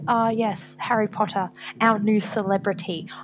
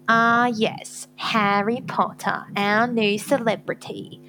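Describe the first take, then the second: First: It is said flatly, without derision. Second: It is said with derision and loathing.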